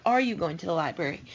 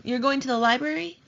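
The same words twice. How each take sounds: First: "Are you going to the library?" said fast, dropping at the end; quick, falling question. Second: "You're going to the library?" with the voice climbing at the end; rising question tune. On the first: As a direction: rattle it off, tune falling. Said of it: "instead of". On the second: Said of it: "indicate with your voice that you're asking". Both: Shown as a demonstration.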